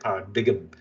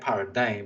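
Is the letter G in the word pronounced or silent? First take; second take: pronounced; silent. First: The word is said with the G sounded. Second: The word is said with a silent G. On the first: "it looks like paradigm, which is how some people um, pronounced it and got into a lot of um, flack about it" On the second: "it doesn't even look like paradigm"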